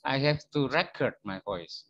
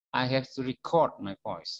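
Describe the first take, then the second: First: Record is stressed on its first syllable. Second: Record is stressed on its second syllable. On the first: It means a recording, a noun. The speaker calls it wrong. "keliru rekaman" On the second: It means the act of recording. The speaker calls it right.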